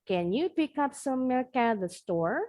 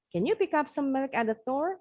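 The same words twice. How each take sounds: First: The sentence is said at medium speed. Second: The sentence is said quickly. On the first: "Makin lama, makin cepat" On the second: "Makin lama, makin cepat"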